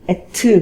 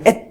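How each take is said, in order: First: A short extra vowel follows the final consonant. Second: The word ends abruptly on the final consonant. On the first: "영어의 일본식 발음이라고 생각하면 됩니다" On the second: "그냥 at"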